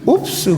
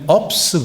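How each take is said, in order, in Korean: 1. 영어의 'oo' 모음으로 발음해요. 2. 한국어의 'uh' 모음으로 발음해요. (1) "그 중에 하나가 옵스예요" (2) "어떤 게 콩글리시가 되냐면 업스 그래요. 몸에 밴 언어는 어인데 배운 건 옵스인데 그게 동시에 하다 보니까"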